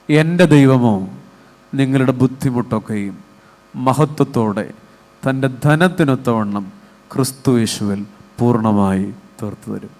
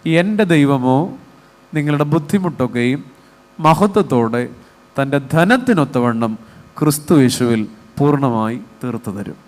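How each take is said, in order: First: It is read evenly with no highlighted word. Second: One word is strongly emphasized.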